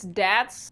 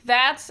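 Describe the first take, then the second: First: The word begins with a d sound. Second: The word begins with a th sound. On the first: "He uses the T H's with the D sound" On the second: "instead of that's"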